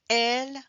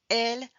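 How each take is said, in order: Both takes have the same delivery.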